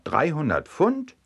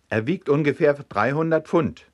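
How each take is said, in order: First: "Dreihundert Pfund" high, rising sharply on "Pfund"; astonished echo ending on a high question; incredulous question. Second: Higher acted reply, closing downward on "Pfund"; matter-of-fact statement. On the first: Acted. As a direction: echo it back in disbelief. Farmer echoes the weight in disbelief. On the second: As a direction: state "dreihundert Pfund" as fact, falling at the end. Warder states the weight.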